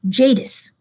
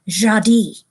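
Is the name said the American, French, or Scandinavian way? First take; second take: American; French. First: The name is said the common American way. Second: The name is said the way a French word sounds. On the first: "here in the United States, most people pronounce that Jadis" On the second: "it sounded like a French word, and so they pronounce it Jadi"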